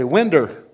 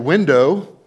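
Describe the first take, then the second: First: The word ends with an 'er' sound. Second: The word ends with an 'oh' sound. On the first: "you say winder" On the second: "say window"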